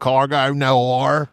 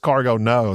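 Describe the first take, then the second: First: The last word ends with an R sound. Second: The last word ends without an R sound. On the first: "They go Cargo Noir. ... They say their nose with an R" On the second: "the game in Australia is just Cargo No"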